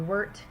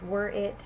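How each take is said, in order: First: It is contracted into one short word. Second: It is said in full as two words.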